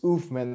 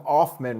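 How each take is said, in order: First: The first vowel sounds like 'oof'. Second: The first vowel sounds like 'off'. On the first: The speaker calls it right. "it was Oofman the entire time" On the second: The speaker calls it wrong. "I always called him Offman Rules"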